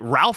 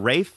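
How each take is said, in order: First: The name is said with an L sound. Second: The name is said without an L sound. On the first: The speaker calls it wrong. "spelt Ralph" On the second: The speaker calls it right. "pronounced Rafe"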